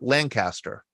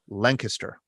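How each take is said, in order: First: The name is said with the Pittsburgh pronunciation. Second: The name is said with the local Lancaster pronunciation. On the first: The speaker calls it wrong. "normally here in Pittsburgh, we would call Lancaster" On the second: The speaker calls it right. "Did I say that right"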